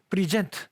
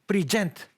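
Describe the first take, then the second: Both takes have the same delivery.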